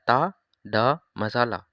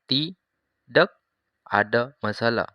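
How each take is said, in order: First: The first word is shortened to one syllable. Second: The first word is said in full, two syllables. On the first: This is the everyday short form. "आपने शॉर्ट बोलना है" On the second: This is the original full form. "अगर ओरिजिनल है उसको बोलते हैं तीडक।"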